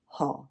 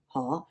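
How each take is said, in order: First: The pitch is low and falls. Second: The pitch starts mid and rises. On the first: It means river. "It's also a fourth low falling Ha" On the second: It means can or able. "that's your mid-rising Ha, right? The second tone there"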